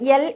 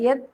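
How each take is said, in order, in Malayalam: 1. ഈ വാക്ക് L ശബ്ദത്തിൽ അവസാനിക്കുന്നു. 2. ഈ വാക്ക് T ശബ്ദത്തിൽ അവസാനിക്കുന്നു. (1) "യൽ എന്നാണ് ഞാൻ പറഞ്ഞത്" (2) "യത് എന്നാണ് പറയേണ്ടത്"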